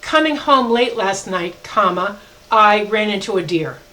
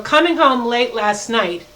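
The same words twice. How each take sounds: First: Slow, with "comma" said aloud; dictating an example sentence; slow dictation. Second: Slow, leaning on "coming"; single out "coming home late last night"; pointing back at the intro phrase; stressed phrase. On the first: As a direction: read the sentence and name the comma. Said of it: "another example would be". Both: Shown as a demonstration.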